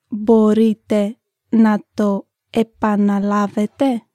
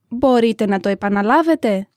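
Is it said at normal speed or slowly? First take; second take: slowly; normal speed. First: It is said slowly. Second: It is said at normal speed.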